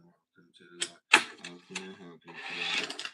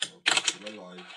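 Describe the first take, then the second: First: Bright customer-service greeting; chirpy shop assistant offering help; upselling cashier. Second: Loud, dull shop-till greeting; bored cashier reading the welcome; depressed cashier. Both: Acted. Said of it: "I sound like a depressed cashier then".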